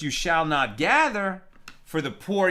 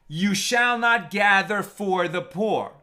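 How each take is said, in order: First: There is a pause between gather and for. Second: There is no pause between gather and for. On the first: The poor are the ones the gleanings are left for. "Not uh, the, the, the corner of the field" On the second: One may not gather the gleanings on behalf of the poor. "reading it as though there were no break in the middle"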